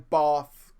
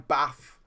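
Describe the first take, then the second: First: It is said in the accent south of the line. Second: It is said in the accent north of the line.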